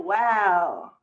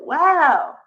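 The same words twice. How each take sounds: First: It sounds disapproving and negative. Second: It sounds impressed and positive.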